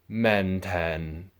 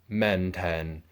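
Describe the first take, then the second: First: The second syllable starts with a 't' sound. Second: The second syllable starts with a 't' sound.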